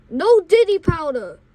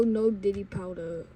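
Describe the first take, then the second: First: Raised, firm mock yell. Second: Said in the usual way. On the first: Bus driver forbidding the powder, moderately loud yell. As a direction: lay down the law loudly. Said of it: "She full on yelled". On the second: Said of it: "I yell".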